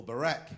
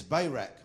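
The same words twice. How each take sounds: First: Barak said as buh-RAK; alternative pronunciation. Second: Barak said as BAY-rak; first pronunciation. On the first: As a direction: say Barak with a short, reduced first syllable. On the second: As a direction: say Barak with a long "bay" opening. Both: Shown as a demonstration. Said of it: "I don't know how you say it in American".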